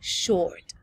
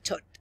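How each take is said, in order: First: It is said with an English pronunciation. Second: It is said with a Chilean Spanish pronunciation. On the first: The speaker calls it right. "la mejor pronunciación para eso es short" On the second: The speaker calls it wrong. "acá en Chile nosotros le dicen el short"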